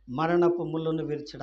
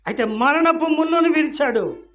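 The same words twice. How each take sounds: First: Said in the usual way. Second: Loud, high preacher's shout; raised pulpit cry; triumphant proclamation. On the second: Real, not acted. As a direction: proclaim the victory at full voice. Preacher proclaims, then repeats plainly.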